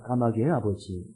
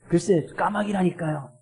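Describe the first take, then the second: First: It is said in a calm, plain tone. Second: It is said in an irritated tone.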